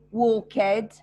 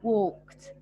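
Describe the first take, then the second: First: The ending is said as a separate syllable. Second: The ending joins the word with no extra syllable. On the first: The speaker calls it wrong. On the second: The speaker calls it right.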